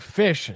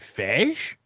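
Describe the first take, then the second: First: The word is pronounced in the usual way. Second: The word is pronounced in an unusual way. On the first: "instead of saying fish" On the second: "Why'd you say it that way?"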